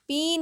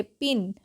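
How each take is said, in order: First: पिन stretched to "peen"; wrong long vowel. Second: पिन with a short "i", lower. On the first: Teacher shows the wrong reading, पिन said as "peen". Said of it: "पिन नहीं, क्या पढ़ेंगे". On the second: Teacher corrects the learners' reading, पिन with short "i". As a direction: say पिन briefly, like English "pin". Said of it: "क्या पढ़ेंगे?". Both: Shown as a demonstration.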